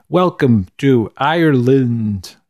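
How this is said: It is said in a poor imitation Irish accent.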